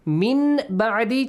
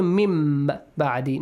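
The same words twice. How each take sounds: First: Said in the usual way. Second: "mim ba'di" with a held, half-closed m; hidden mim. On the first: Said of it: "changes to mim ba'di". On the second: Shown as a demonstration. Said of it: "Now hide the sound of meme".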